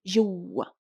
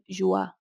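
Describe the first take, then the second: First: The middle vowel sound is held and doubled. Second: The middle vowel sound is short and single. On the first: The speaker calls it right. "the shadda is doubling the sound of the u" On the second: The speaker calls it wrong. "we're not saying jua"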